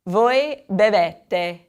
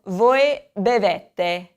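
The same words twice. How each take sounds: First: Voi bevete again, very slow; voy beh-VEH-teh once more, very slowly; slow repetition of voi bevete; repeat for class. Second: Voi bevete, very slow; voy beh-VEH-teh, very slowly; slow model of voi bevete; model for repeating. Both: Shown as a demonstration.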